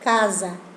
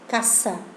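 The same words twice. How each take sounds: First: It is said with a softer Italian pronunciation. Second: It is said with a plainer Spanish pronunciation.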